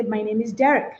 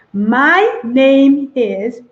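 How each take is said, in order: First: "My name is Derek" softly run together; easy, flowing "My name is Derek"; smooth casual introduction. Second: "My name is" very slow and louder, rising; laboured "My name is", word by word; over-deliberate introduction. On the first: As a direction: link "My name is Derek" in one quick breath. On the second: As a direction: stretch each word of "My name is". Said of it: "do not say". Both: Shown as a demonstration.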